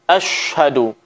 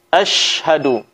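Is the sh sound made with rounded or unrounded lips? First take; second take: rounded; unrounded. First: The sh sound is made with pouted, rounded lips. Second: The sh sound is made with relaxed, unrounded lips. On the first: The speaker calls it wrong. "ada di antara kita membaca seperti ini dengan memonyongkan bibir" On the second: The speaker calls it right. "Mulut biasa saja tidak perlu kita monyongkan"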